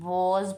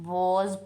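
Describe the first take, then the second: First: It is said with a British vowel. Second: It is said with a British vowel.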